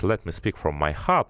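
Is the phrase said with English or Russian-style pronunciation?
English. It is said with natural English pronunciation. The speaker calls it right. "так-то это, конечно, звучит"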